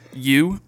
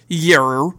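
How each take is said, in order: First: The word is said in a plain accent. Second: The word is said in an Australian accent.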